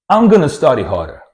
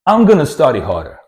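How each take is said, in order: First: Going to is reduced and blended into gonna. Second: Going to is reduced and blended into gonna.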